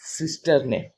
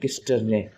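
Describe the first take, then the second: First: The word starts with an S sound. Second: The word starts with a K sound. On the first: "कहीं पे स का pronounce करता है" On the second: "कहीं कहीं पे क का प्रोनाउंस करता है"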